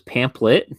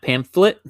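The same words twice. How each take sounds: First: The middle consonant is pronounced as a p. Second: The middle consonant is pronounced as an f. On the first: The speaker calls it wrong. "I thought it was pamphlet ... like there was like P A M P" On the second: The speaker calls it right. "not pamphlet"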